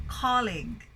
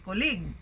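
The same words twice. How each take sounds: First: Colleague stressed on COL; stress on first syllable. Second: Colleague stressed on the second syllable; misplaced stress. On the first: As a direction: say COL-league with a falling end. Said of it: "but you say colleague". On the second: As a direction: wrongly say col-LEAGUE. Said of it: "we don't say colleague". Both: Shown as a demonstration.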